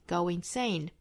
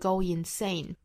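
First: A small w sound links the two words. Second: The two words are said without a linking sound. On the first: The speaker calls it right. "同样 go 和 insane 之间要加一个小小的 word 来连贯" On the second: The speaker calls it wrong. "不要直接读成 go insane"

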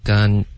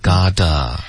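First: The word is said with an n sound. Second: The word is said with a t sound. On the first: The speaker calls it wrong. "你发成gun, OK, 就变成一个N 的音了" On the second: The speaker calls it right. "是gotta"

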